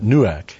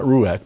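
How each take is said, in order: First: Nuach said noo-ahk with a clear n; right word nuach. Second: Ruach said roo-ahk, the wrong word; plain ruach as the word to reject. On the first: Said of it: "but nuach". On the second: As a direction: contrast ruach, roo-ahk, against nuach. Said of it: "not ruach, but nuach". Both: Shown as a demonstration.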